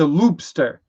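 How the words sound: It is said in a New Jersey accent. "Jersey for some reason, it's a loopster"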